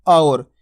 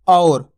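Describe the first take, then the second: First: और with a full open au glide, lower pitch; clear au sound. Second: और said as plain or, no au glide; wrong flat or. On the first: Teacher modelling the au vowel. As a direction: stretch और as a rounded au. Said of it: "गौर से सुनो मैं किस तरीके से शब्द का उच्चारण कर रहा हूँ". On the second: Teacher showing the wrong or. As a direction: clip और into a flat or. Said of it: "और नहीं बोला मैंने". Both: Shown as a demonstration.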